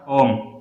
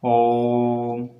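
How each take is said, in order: First: The vowel is said short and plain. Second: The vowel is held long and drawn out. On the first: It is a person's name. "ओम किसी का नाम है, संज्ञा ओम" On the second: It is the sacred chanted syllable. "एक लंबा उच्चारण हो रहा है ओम में"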